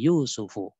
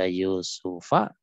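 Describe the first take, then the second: First: The name ends with a u vowel. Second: The name ends with an a vowel. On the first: The speaker calls it right. "tapi Yusufu. Karena dia fa'il" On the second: The speaker calls it wrong. "Tidak dibaca Yusufa"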